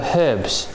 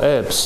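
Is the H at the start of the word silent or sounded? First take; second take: sounded; silent. First: The word begins with a sounded H. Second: The word begins with a silent H.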